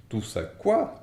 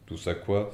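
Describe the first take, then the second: First: Higher, louder booming question; thundering. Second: Surprised. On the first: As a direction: roar it back in outrage. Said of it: "tonna Hagrid". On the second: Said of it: "s'étonna Harry". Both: A narrator's reading.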